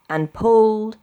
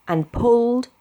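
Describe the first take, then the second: No difference in how they are said.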